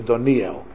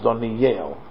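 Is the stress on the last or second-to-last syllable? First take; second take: second-to-last; last. First: The stress is on the second-to-last syllable. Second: The stress is on the last syllable. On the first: The speaker calls it wrong. "It's incorrect to say Daniel" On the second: The speaker calls it right. "Milara is Daniel, with the accent on the last syllable"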